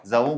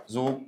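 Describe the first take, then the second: First: Drawn-out ذو pronounced "zaw"; diphthong in ذو. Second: Slow ذو pronounced "zuu"; long u in ذو. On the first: Teacher showing students a nominative form, ذو said as "zaw". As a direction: say ذو as "zaw", with an open a gliding to w. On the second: Teacher showing students the other nominative form, ذو said as "zuu". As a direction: say ذو as "zu", with one long u. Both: Shown as a demonstration. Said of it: "ذو مرفوعة".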